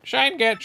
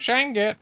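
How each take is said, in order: First: High chirpy game catchphrase; high meme voice. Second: High chirpy catchphrase again; high meme voice. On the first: Japanese Sunshine meme, high. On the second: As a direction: repeat like a sprite. Meme repeated. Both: Acted.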